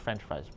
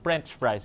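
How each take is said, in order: First: It begins with an F sound. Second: It begins with a P sound. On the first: This is the standard way. "instead of French fries" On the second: This is the Filipino-accented way. "we sometimes Filipinos say French fries"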